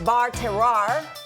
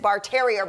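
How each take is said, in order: First: The second word ends with a French 'wahr' sound. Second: The second word sounds like English 'terrier'. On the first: The speaker calls it right. "C- close?" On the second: The speaker calls it wrong. "everyone I know says Bar Terrier, but that is not how you say it"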